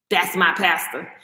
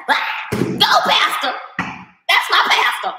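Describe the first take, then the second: First: Low, slow, dismissive echo; lower, slower mock of the fan's proud claim; mocking churchgoer. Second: Mock-excited, slow and airy cheering; airy imitation of a churchgoer cheering her pastor. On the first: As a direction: repeat it lower to mock the devotion. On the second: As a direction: cheer on the pastor like a starstruck fan. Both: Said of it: "they're like".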